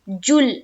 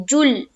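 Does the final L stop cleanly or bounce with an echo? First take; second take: stop; stop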